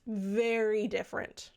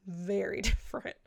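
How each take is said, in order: First: Said in the usual way. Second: Laughing. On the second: Shown as a demonstration.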